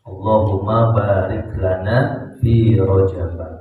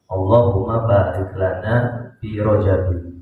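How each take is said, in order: First: The last word ends on a bare 'b' sound. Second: The last word ends with an added '-in' sound. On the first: "Ada juga yang membacanya fi Rajab" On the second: "kasrah tanwin"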